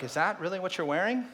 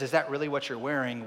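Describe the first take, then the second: First: "Is that really what you're wearing?" lifted, rising up on "wearing"; mock wife question. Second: "Is that really what you're wearing?" with the weight on "that", falling at the end; wife's question heard as a put-down. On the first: Husband imitating his wife's doubt, rising question. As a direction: ask "wearing" with a light questioning rise. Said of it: "our wife will be like". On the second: Retold or imitated. Husband hearing his wife's question as shame, falling and pointed. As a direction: lean on "that" and let it drop flat. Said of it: "when she says".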